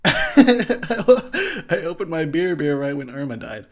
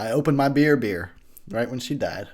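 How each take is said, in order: First: Laughing. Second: Said in the usual way. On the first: Real, not acted. Repeats the line laughing.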